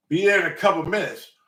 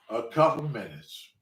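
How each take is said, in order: First: Retold text reply. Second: Low, quiet repeat of the reply; unimpressed echo. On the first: Cousin texting back to the waiting driver, mock breezy. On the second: Retold or imitated. Waiting driver repeating cousin's text, unimpressed. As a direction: drop down and echo it under your voice.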